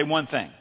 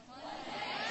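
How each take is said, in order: First: Said in the usual way. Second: Unvoiced soft whisper of the phrase. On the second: Shown as a demonstration. Pastor shows the congregation how to whisper it, whispering. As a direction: whisper "One thing." under your breath. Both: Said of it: "Whisper to the person next to you".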